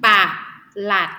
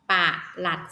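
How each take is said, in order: First: ปะ หลัด split into two separate syllables; teacher breaking ปะ หลัด apart. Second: Said in the usual way. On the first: Shown as a demonstration. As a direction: say ปะ, pause, then หลัด. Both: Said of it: "สังเกตให้ดี".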